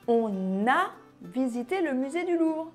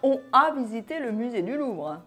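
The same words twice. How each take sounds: First: An n sound links 'on' to 'a'. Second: No n sound links 'on' to 'a'. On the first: The speaker calls it right. "ne pas oublier la liaison" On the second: The speaker calls it wrong.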